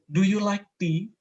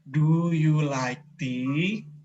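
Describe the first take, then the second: First: The question is said at a normal pace. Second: The question is said more slowly.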